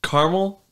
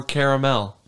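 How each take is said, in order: First: "caramel" said as CAR-mul; "caramel" with the middle vowel dropped, CAR-mul; two-syllable pronunciation. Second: "caramel" said as KAIR-uh-mel; "caramel" with every vowel sounded, KAIR-uh-mel; three-syllable pronunciation. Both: Shown as a demonstration. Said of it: "Caramel or caramel?".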